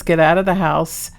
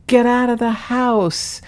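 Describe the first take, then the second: First: Said in the usual way. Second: Higher, slow drawn-out command; imitating the cat. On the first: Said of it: "Sam says". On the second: Owner replaying her cat's words from a recording, high and slow. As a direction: lift it high and spell it out slowly. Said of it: "and he says".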